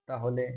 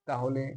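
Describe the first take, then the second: The two takes are said the same way.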